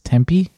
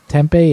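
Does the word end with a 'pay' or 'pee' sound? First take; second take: pee; pay. First: The word ends with a 'pee' sound. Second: The word ends with a 'pay' sound. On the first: The speaker calls it right. "it's Tempe" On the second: The speaker calls it wrong. "Apparently, we've been saying Tempe"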